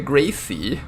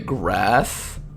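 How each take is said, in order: First: An extra vowel follows the S sound. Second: The word ends on the S sound. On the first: "There's an E at the end of the word. So it should be" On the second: "Pronounce it Coupe de Grace"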